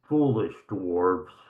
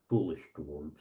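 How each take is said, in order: First: It is said clearly and audibly. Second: It is mumbled quietly and indistinctly. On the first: The remark is meant to be heard. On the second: The remark is muttered privately.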